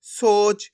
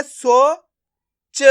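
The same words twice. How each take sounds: First: सोच joined into one drawn-out word; blended word. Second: सो and च sounded separately; long सो, a pause, then च alone; syllable by syllable. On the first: Teacher showing learners the joined result, blended word. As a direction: stretch सो straight into च. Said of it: "तो मिलके बन जाएगा". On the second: Teacher breaking a word up for learners, syllable by syllable. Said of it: "एक एक करके इनका उच्चारण करना है". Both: Shown as a demonstration.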